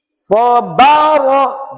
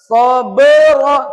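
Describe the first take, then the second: First: The second vowel is an open 'a'. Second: The second vowel is an 'e' sound. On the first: The speaker calls it right. "Dibuka mulutnya semuanya" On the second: The speaker calls it wrong. "jangan be. ... tidak boleh"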